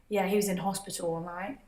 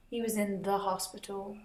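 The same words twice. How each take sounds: First: "in hospital" with no article; plain British "was in hospital", softly. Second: Softer, "the" stressed in "in the hospital"; quiet try of "in the hospital" with "the" picked out; American "in the hospital". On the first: Vlogger trying out the British phrasing "in hospital". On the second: Vlogger trying out the American phrasing "in the hospital". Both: Shown as a demonstration. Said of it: "why do Brits say hospital instead of the hospital".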